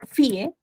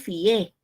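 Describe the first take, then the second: First: The stress falls on the i, two syllables. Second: The stress falls on the e, one syllable. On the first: "tengo que tildar la I porque es un hiato acentual" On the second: "ahí el acento ya no está en la I, está en la E"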